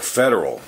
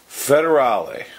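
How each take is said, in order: First: The name ends with a short 'al' sound. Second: The name ends with an extra 'lay' syllable. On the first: The speaker calls it right. "it's probably pronounced Federal" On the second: The speaker calls it wrong. "I mistakenly say Federale"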